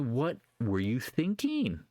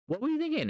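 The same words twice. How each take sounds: First: Said in the usual way. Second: Much higher, squeaky disbelief; incredulous squeal. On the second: Real, not acted. Trader scolding holders who never took profits, incredulous squeal. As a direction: shoot it way up in mock shock.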